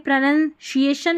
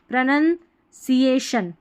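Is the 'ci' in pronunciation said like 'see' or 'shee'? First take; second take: shee; see. First: The 'ci' is said with a 'sh' sound. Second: The 'ci' is said with an 's' sound. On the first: The speaker calls it wrong. "प्रोनंसिएशन नहीं" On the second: The speaker calls it right. "इसको सी ए पढ़ रहे हैं"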